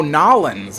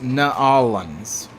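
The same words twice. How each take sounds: First: "Nolans" run together as NAW-lins; New Orleans, outsider way. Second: "Nolans" stretched slowly into nuh-AW-lins; New Orleans, corrected. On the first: He mimics what everyone says, "Nolans" as a quick loud NAW-lins. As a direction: say "Nolans" in two syllables, punched on NAW. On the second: He corrects outsiders' version, "Nolans" said as nuh-AW-lins. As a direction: say "Nolans" with a separate "nuh", then a long AW. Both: Shown as a demonstration. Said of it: "That's not correct".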